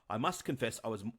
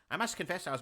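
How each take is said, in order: First: It is said in the speaker's ordinary voice. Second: It is said in an imitated character voice.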